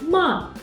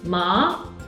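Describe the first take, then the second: First: It is said with the fourth tone. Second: It is said with the second tone. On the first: It means to scold. "is the fourth tone" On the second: It means a kind of hemp. "is the second tone"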